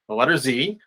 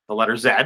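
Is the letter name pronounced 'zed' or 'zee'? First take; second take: zee; zed. First: The letter is said the American way, 'zee'. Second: The letter is said the Canadian/British way, 'zed'.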